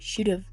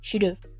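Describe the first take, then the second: First: The words are reduced and run together. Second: The same.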